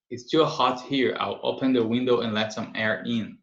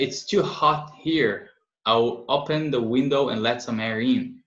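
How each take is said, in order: First: Said in the usual way. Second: Slow, careful model sentence read to the class. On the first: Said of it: "repeat at normal pace". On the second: Shown as a demonstration. Teacher reading slowly to learners, clear and unhurried. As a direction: read it out slowly for students to copy. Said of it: "slow teacher model reading".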